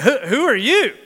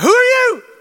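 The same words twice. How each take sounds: First: The question sounds puzzled and confused. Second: The question sounds startled and shocked. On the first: The asker does not understand the situation. "maybe it was confused" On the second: The asker is alarmed by the surprise. "Or maybe it was shock"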